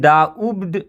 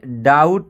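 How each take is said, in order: First: A b sound is pronounced in the word. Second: No b sound is pronounced in the word. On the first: The speaker calls it wrong. "इसको हम डाउब्ड नहीं पढ़ेंगे" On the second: The speaker calls it right. "ये डाउट है, इसमें बी silent है"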